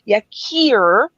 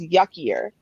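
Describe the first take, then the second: First: The name is said as 'Yakir'. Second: The name sounds like the word 'yuckier'. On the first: The speaker calls it right. "You're supposed to pronounce it Yakir" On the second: The speaker calls it wrong. "I know that's not how you pronounce it"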